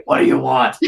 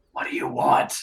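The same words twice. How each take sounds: First: Voiced demand. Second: Voiceless, under-the-breath challenge; low gruff-whispered question. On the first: Retake of Canton's question. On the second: Acted. Canton turns over his shoulder to you, whispered question.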